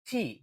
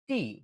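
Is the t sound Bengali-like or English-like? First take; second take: English-like; Bengali-like. First: The t sounds like an English t. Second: The t sounds like a Bengali t. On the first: The speaker calls it right. "এটাকে বলতে হবে টি" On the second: The speaker calls it wrong. "টি উচ্চারণটা ভুল উচ্চারণ"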